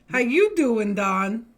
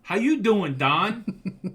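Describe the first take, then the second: First: Loud, high hello to a friend; cheery shout-out; excited greeting. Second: Loud, high hello copied from his wife; playful echo of the greeting; echoed excited greeting. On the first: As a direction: call out a big hello to Don. Greeting Don loudly on stream. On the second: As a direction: shout the same hello right back. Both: Real, not acted.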